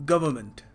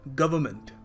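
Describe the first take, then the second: No difference in how they are said.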